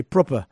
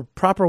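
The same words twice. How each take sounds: First: Proper said the British way, with a rounded o and no final r; posh British proper with a dropped r; British accent. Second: Said in the usual way. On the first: Shown as a demonstration. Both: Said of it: "or as the British say".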